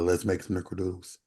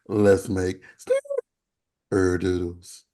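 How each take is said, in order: First: The voice stays low and steady throughout. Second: The voice cracks up into a high pitch. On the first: This is what was meant to be said. "my regular voice" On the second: This is how it actually came out. "instead it went"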